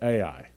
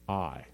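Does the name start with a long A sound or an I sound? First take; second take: long A; I sound. First: The name starts with a long A sound. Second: The name sounds like the single word I. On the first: This is how most people say the place name. The speaker calls it wrong. "everybody pronounces it Ai" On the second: This is how the place name sounds in Hebrew. The speaker calls it right. "It's just I"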